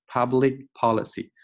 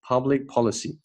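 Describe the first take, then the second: First: "public policy" with the K of "public" fully sounded; wrong, released K. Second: "Public policy" with the K of "Public" unreleased; swallowed K. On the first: Teacher warning students of a mistake, K released in "public policy". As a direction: pop an extra "kuh" between "public" and "policy". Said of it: "不要读成了public policy，OK， 这个K我们给吞掉". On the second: Teacher showing students the right way, swallowed K in "Public policy". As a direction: hold back the K in "Public", go straight into "policy". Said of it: "这个K我们给吞掉". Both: Shown as a demonstration.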